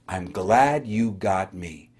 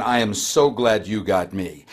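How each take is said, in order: First: Slow, lower, tender reassurance; warm and glad. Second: Lower, slowed glad greeting. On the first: The helper reassuring a sick caller, slow and warm. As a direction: soothe a sick caller gently. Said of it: "that person that said". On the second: Leslie greeting the sick caller, gladly. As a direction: welcome the caller kindly. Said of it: "Leslie says". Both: Retold or imitated.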